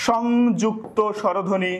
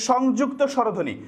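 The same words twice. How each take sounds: First: Slow, spelled-out সংযুক্ত স্বরধ্বনি; teacher slowly dictating the new term; slow clear repeat. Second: Said in the usual way. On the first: Shown as a demonstration.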